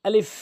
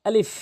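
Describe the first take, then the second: Both takes have the same delivery.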